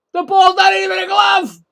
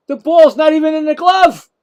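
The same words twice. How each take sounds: First: Much higher, louder shout stressing not; full outraged shout. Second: Higher, louder indignant call-out; indignant yell. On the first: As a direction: lose it completely at the call. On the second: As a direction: make the umpire hear you. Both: Real, not acted. Protesting umpire's call live.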